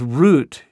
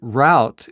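First: The vowel sounds like the one in 'boot'. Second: The vowel sounds like the one in 'out'. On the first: This is the usual British form. "root is the standard in British English" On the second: This is the usual American form. "route is more common in American English"

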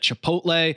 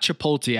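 First: The L sound comes after the T. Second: The L sound comes before the T. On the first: The speaker calls it right. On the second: The speaker calls it wrong.

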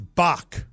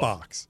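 First: The name ends with a plain 'k' sound. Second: The name ends with a 'ks' sound. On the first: The speaker calls it right. "It's Bach. Like Johann Sebastian Bach" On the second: The speaker calls it wrong. "No, not"

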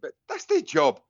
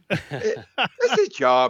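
First: It is said in the speaker's normal accent. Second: It is said in an imitated Irish accent.

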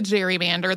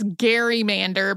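First: It is said in the modern, present-day pronunciation. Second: It is said in the older, original pronunciation.

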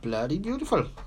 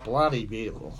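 First: It is said in a put-on Welsh accent. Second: It is said in the speaker's ordinary accent.

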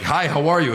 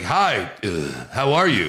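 First: It is said smoothly without a filler. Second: A filler "uh" fills a pause mid-phrase.

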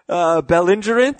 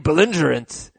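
First: The word is said in a calm, neutral tone. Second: The word is said in an angry tone. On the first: The speaker calls it wrong. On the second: The speaker calls it right.

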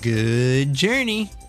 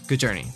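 First: It is said slowly, words kept apart. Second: It is said quickly, words run together.

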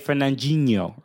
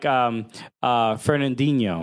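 First: The D is soft, almost like a G. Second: The D is pronounced hard and clear. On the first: This is how the player himself says the name. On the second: This is how other people commonly say the name.

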